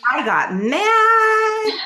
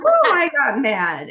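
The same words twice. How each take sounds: First: Squealed way up high, loud and slow; mock-indignant outraged cry, very high; got mad. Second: Louder and higher, drawn out but less extreme; emphatic retelling of anger, slower; got mad. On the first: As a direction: stretch it out in a shrill outraged wail. Reacting to assault, performed. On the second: Retold or imitated. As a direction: lean into it with an emphatic "Ooh". Restates the anger, firmer.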